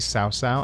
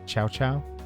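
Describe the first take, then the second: First: The name does not begin with a 'ch' sound. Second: The name begins with a 'ch' sound. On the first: This is how the speaker used to say it. The speaker calls it wrong. "I used to say" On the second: This is how the speaker now thinks it is said. The speaker calls it right. "I think it's like"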